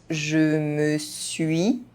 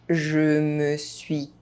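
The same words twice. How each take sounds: No difference in how they are said.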